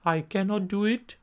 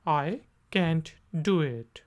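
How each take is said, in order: First: Said in the usual way. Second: Quick I can't do it; short clipped can't; contracted can't. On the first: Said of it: "normal pace में". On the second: Shown as a demonstration. Teacher contrasting full and short. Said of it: "contracted form".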